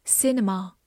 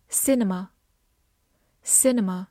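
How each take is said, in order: First: "cinema" with an open "ah" ending; alternative pronunciation. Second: Said in the usual way. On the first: Shown as a demonstration. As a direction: variant "cinema", final vowel opened to "ah". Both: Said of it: "或者cinema".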